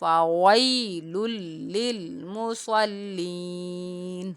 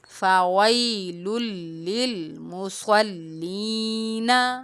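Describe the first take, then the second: First: The last word ends on a plain 'n' sound. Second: The last word ends with a full 'na' syllable. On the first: The reader stops at the end of the phrase. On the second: The reading continues without stopping.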